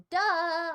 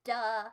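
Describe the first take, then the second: First: A loud, mocking "Duh."; louder emphatic duh. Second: Said in the usual way. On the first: Streamer mocking chat with a loud duh. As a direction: throw the "Duh." back at chat.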